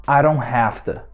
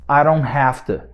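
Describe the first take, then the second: Both takes have the same delivery.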